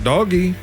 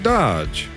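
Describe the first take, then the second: First: It is said with two syllables, like 'doggy'. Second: It is said with a short o, like 'lodge'. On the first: A joking alternative. "I could pronounce it doggy" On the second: The speaker's own chosen way. "I'm going to pronounce it Dodge"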